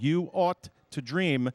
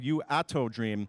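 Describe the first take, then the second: First: The middle sounds like the words 'ought to'. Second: The middle sounds like one word, 'atto'. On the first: The speaker calls it right. "should be pronounced "You Ought to Dream."" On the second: The speaker calls it wrong. "last week we were calling her You Atto Dream"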